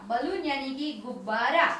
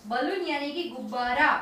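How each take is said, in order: Both takes have the same delivery.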